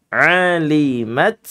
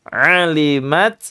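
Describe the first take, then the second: The two takes are said the same way.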